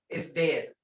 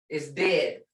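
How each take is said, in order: No difference in how they are said.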